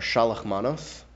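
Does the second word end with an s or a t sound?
s. The second word ends with an s sound.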